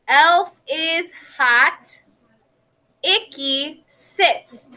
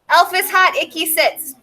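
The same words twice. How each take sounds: First: There is a clear pause between the sentences. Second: The two sentences run together without a pause. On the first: Each idea is complete before the next. The speaker calls it right. "I had my pause" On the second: The ideas get jumbled together. The speaker calls it wrong. "Did I pause at the stop sign at that period? No"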